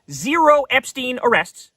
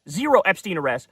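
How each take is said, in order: First: Slow and weighty, stress on Zero; slow emphatic statement. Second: Said in the usual way. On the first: Shown as a demonstration. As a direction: lean hard on Zero, each word separate. First emphatic take of repeated line.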